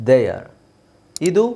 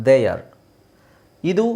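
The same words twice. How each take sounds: The two takes are said the same way.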